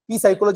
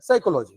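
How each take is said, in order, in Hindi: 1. शब्द एक अलग P ध्वनि से शुरू होता है। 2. शब्द सीधे S ध्वनि से शुरू होता है। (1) "पी सायकोलॉजी असं बोलतो का?" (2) "नाही"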